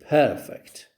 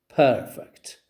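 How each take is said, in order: First: The stress is on the first syllable. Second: The stress is on the first syllable.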